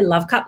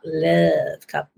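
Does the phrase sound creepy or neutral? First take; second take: neutral; creepy. First: It is said in a plain, neutral way. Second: It is said in a creepy, suggestive way. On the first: The speaker calls it right. "we have to say love cup" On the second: The speaker calls it wrong. "not love cup, because that's a little creepy"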